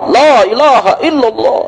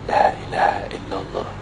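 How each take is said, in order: First: It is said loudly. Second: It is said quietly.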